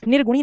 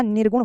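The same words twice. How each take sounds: First: निर्गुणी ending in "nee"; निर्गुणी with an added final ee; wrong ee ending. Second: निर्गुण ending on n; निर्गुण with no vowel after the final n; correct form without i. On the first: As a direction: say निर्गुणी as "nirgunee". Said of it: "निर्गुणी नहीं होता". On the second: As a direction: say निर्गुण as "nirgun". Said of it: "निर्गुण होता है". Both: Shown as a demonstration.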